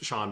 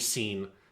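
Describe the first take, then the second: First: The name is said like 'Shawn'. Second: The name is said like the word 'seen'. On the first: The speaker calls it right. "my name is Sean" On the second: The speaker calls it wrong. "if you called me Scene"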